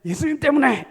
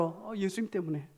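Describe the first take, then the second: First: Loud, high complaining outburst; frowning lament. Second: Much softer, easy reply; gentle answer. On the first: Preacher showing how not to answer "because of Jesus", loud scowling lament. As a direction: blurt it through a scowl, sharply raised. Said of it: "인상 막 찡그리고 한탄하는데". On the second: Preacher modelling a believer's answer to a curious friend, soft and gentle. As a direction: answer softly and simply after a little "oh". Right answer, against the scowling one. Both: Shown as a demonstration.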